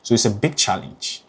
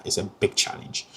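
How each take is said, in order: First: Said in the usual way. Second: "it's a big challenge" dropped to a near whisper; hushed repeat. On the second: Real, not acted. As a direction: let "big challenge" sink into a breathy whisper. Repeats the phrase more softly.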